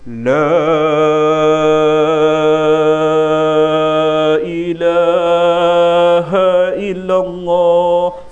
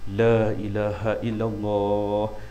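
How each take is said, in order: First: It is said very slowly. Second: It is said at a moderate pace.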